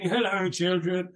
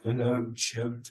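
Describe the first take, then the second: First: It is said in a strong, hearty voice. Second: It is said in a frail, creaking old voice.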